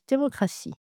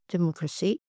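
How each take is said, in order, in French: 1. Le A du milieu est ouvert et bien prononcé. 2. Le A du milieu s'affaiblit vers un son E. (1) "on veut entendre un A bien net" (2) "Démocratie devient parfois democracy"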